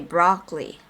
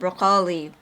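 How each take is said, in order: First: It is said with an American pronunciation. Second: It is said with a Filipino pronunciation. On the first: "here in America they say broccoli" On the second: "I used to pronounce it broccoli"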